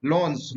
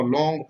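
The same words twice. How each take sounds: First: लॉन्स ending in a clear "ns"; correct pronunciation. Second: लॉन्ग ending in a hard g sound; common misreading. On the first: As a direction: say लॉन्स with a final s, no g. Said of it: "सही उच्चारण इसका होता है". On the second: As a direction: say लॉन्ग with "-ng" in place of "-ns". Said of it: "बहुत सारे लोग इसको लॉन्ग पढ़ते हैं". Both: Shown as a demonstration.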